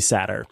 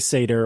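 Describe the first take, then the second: First: The first vowel sounds like 'sat'. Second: The first vowel sounds like 'say'. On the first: "that's the second pronunciation" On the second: "you can say Satyr"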